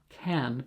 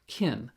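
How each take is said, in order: First: The word has a full open 'a' vowel. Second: The word sounds like 'kin' with short 'i'. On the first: The speaker calls it right. "not can" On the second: The speaker calls it wrong. "but kin"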